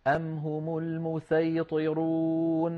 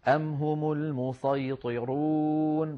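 First: Very slow chanted tajweed, المسيطرون with a thin plain sīn; recited with sin. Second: Very slow chanted tajweed, المسيطرون with heavy emphatic ṣād; recited with sad. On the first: Teacher chants the same verse again with sīn, slow and drawn out. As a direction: chant المسيطرون slowly, light clear s. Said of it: "بالسين". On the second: Teacher chants the verse first with ṣād, slow and drawn out. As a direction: chant المسيطرون slowly, thick velarized s. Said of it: "بالصاد عادي". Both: Shown as a demonstration.

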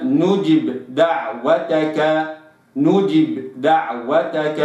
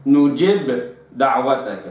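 First: نجب with the kasra fully completed, slow; correct reading. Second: نجب with the kasra cut short; نجب دعوتك read wrongly. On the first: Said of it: "وإنما". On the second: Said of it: "لا أقرأها". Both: Shown as a demonstration.

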